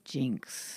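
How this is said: The vowel sounds like the 'i' in 'pink'. This is the usual way others say it. "instead of jinx"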